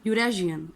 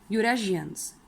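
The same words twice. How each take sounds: First: यूरेशियन with a j sound, the right way; यूरेशियन said with j, correctly; correct pronunciation. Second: यूरेशियंस said with sh as the wrong way; यूरेशियंस with a sh sound, marked wrong; wrong reading. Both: Shown as a demonstration. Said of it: "इसे हम यूरेशियन नहीं पढ़ेंगे".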